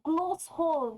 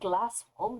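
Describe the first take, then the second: First: The first vowel sounds like the 'o' in 'gloss'. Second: The first vowel sounds like the 'a' in 'glass'. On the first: The letter carries a diacritic. The speaker calls it right. "It's Glossholm" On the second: The letter is read without its diacritic. The speaker calls it wrong. "not Glassholm"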